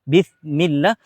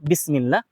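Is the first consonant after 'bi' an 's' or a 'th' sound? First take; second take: th; s. First: The consonant after bi is a th sound. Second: The consonant after bi is a plain s sound. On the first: It means with the sin of God. The speaker calls it wrong. "ketika kita baca sa" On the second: It means in the name of God. The speaker calls it right. "kalau pakai sin"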